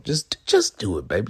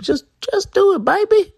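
First: Said in the usual way. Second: High squeaky falsetto, louder. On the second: Pretend. Repeat in falsetto.

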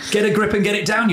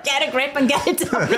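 First: Punchy campaign slogan; slogan delivery. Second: Laughing. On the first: Shown as a demonstration. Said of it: "great thing to, campaign on". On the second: Real, not acted. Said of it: "We shan't be using that as a slogan".

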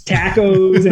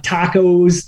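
First: Tacos with a flat a, TACK-ohz; tacos, northern. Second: Tacos with a broad ah vowel, TAH-kohz; tacos, standard. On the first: Teased kids heard his northern tacos as TACK-ohz. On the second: Recalling how he said the word, tacos as TAH-kohz. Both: Shown as a demonstration. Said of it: "I guess I'd say".

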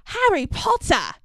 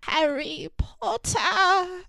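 First: Excited, lightly voiced house-elf; squeaky elf greeting, lightly; Dobby voice. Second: Dying Dobby. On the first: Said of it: "Dobby's first lines". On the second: Retold or imitated. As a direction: breathe it out like a dying elf. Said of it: "his last lines ... lying in Harry's arms".

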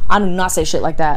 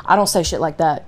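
First: Louder, stress on "do not"; emphatic denial. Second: Said in the usual way. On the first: Retold or imitated. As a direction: punch out "do not" in full.

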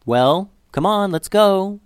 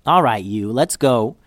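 First: Higher, drawn-out urging from the dog; impatient dog. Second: Amused giving-in. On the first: Dog eyeing Liddy to get moving, impatient urging. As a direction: coax her along, stretched and high. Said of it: "looked at Liddy like". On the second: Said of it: "Liddy laughed". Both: A narrator's reading.

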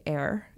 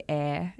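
First: "air" with the final R sounded; "air" said the American way; American rhotic R. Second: "air" with the final R dropped; "air" said the Australian way, R silent; non-rhotic R. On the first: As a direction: curl a clear R onto the end of "air". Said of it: "in America they say". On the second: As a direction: end "air" on the vowel, no R. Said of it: "we don't pronounce our R's at the ends". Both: Shown as a demonstration.

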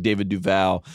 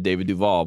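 First: David Duval ending like "pal"; corrected name pronunciation. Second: David Duval ending like "all"; habitual mispronunciation. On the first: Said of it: "like David Duval". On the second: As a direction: say Duval as "du-VAWL". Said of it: "even though I always said". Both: Shown as a demonstration.

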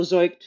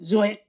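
First: Said in the usual way. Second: Zeugt said the Yiddish way, rising at the end; Yiddish accent. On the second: Shown as a demonstration. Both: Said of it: "which I'll do with a Yiddish accent".

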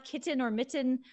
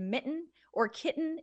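First: "kitten" and "mitten" with a clear T and a full vowel after it; sounded-out T. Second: "mitten" and "kitten" with the tt swallowed as a glottal stop. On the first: Connecticut speaker showing how it is not said, T sounded out. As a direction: pronounce the tt crisply in "kitten" and "mitten". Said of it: "it's not". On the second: Connecticut speaker showing her local mitten and kitten, glottal stop. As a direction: catch the throat for the tt in "mitten" and "kitten". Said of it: "what's called a glottal stop". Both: Shown as a demonstration.

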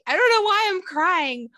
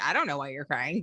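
First: High, loud mock wail; hammed-up tearful client, voice pitched way up; distressed therapy client. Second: Said in the usual way. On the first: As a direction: play a bewildered client crying out. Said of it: "people ask me that". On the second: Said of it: "I'm like".

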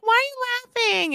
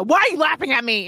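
First: Curious question. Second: Accusing question. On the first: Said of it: "my toning is weird". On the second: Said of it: "It's more like a". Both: Shown as a demonstration.

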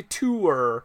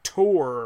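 First: "tour" with an oo vowel, like too-er; Canadian "tour". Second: "tour" with an aw vowel, like tore; American "tour". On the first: Host showing his own Canadian way, "tour" with oo. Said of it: "I say tour". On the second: Host showing the American way, "tour" as tore. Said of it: "apparently in America they're like". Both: Shown as a demonstration.

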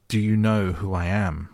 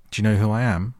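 First: Imperious demand. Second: Loud, higher-pitched imperious question; haughty demand. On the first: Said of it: "demanded Colin still more imperiously". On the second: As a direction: demand it like a young Rajah, ringing out. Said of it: "demanded the Rajah". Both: A narrator's reading.

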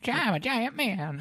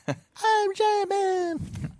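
First: Very high, slow squeaky giant; drawn-out squeaky cartoon voice; silly giant voice. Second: Very high, very slow squeaky giant; silly giant voice. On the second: Pretend. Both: Joking giant man voice.

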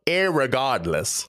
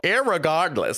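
First: Slow mock-British "irregardless"; a light, slowly savored British accent. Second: IRREGARDLESS pushed out with effort, pitch swooping up high, then dropping; labored, high-swooping "irregardless"; forced-out word. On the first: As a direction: put on a British accent, drawing the word out. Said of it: "have to say in a British accent". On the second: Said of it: "makes my voice hurt trying to force out". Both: Shown as a demonstration.

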